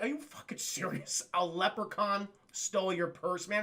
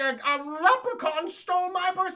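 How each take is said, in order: First: Understated, sceptical echo; mock incredulous cop. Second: High, loud, hammed-up complaint; mock frantic victim. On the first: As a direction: doubt the report, keeping it down. Retold cop doubting the woman. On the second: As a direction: play a distraught woman reporting a theft. Retold woman reporting theft.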